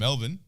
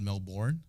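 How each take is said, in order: First: The last syllable is a reduced 'bun'. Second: The last syllable is a full 'born'. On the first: This is how locals say the name. The speaker calls it right. "But Melbourne, fucking fun time" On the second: This is how Americans say the name. The speaker calls it wrong. "I would never go to a place called Melbourne"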